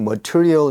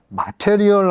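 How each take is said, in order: First: It is said with natural English pronunciation. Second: It is said as spelled, Korean-style: ma-te-ri-eol. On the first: The speaker calls it right. "이렇게 발음을 하거든요" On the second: The speaker calls it wrong. "마테리얼 하고 읽는 거예요"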